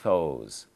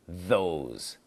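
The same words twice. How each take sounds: First: The first sound is voiceless, like an f. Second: The first sound is voiced, a buzzing th. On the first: The speaker calls it wrong. "if I don't voice it, ... Not correct" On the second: The speaker calls it right.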